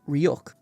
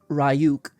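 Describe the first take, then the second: First: The name is said with its standard pronunciation. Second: The name is bent to rhyme with 'die too'. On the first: The speaker calls it right. "in Japanese and in English, his name is Ryuk" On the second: The speaker calls it wrong. "says Ryuk... mispronouncing this name"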